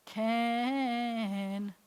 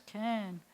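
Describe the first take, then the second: First: "Can" with a long stretched vowel; sounded-out word. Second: Said in the usual way. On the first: Shown as a demonstration. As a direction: draw out "Can" slowly for learners. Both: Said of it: "sound it out like this".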